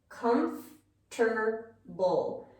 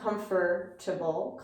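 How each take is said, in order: First: The middle 'for' syllable is dropped. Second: The middle 'for' syllable is fully pronounced. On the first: The speaker calls it right. "we often just take it out" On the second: The speaker calls it wrong. "We see this vowel here with fur, fur, comfortable, comfortable, and we want to pronounce it"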